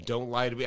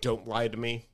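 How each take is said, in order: First: Lower, soft mock warning again with lie leaned on; lightly voiced insistent friend; stern Jeff repeated. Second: Lower, soft mock warning; a hint of a stern friend; stern Jeff. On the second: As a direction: friend on phone, mildly voiced warning. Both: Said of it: "And he goes".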